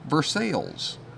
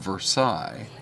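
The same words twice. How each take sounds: First: It is said the local Missouri way. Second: It is said the French way. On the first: It names the town in Missouri. "you know how they pronounce it there?" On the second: It names the palace in France. "a palace in France called Versailles"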